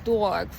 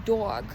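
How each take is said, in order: No difference in how they are said.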